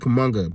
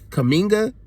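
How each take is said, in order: First: The middle syllable has an 'uh' vowel. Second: The middle syllable has an 'ih' vowel. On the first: The speaker calls it wrong. "I used to say Kamunga" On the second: The speaker calls it right. "I think that's right"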